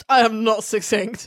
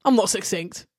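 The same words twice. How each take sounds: First: "am" and "not" each hit hard, slower and a bit louder; emphatic denial. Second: Said in the usual way. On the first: Shown as a demonstration. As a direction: spell out "I am not succinct" word by word, insisting.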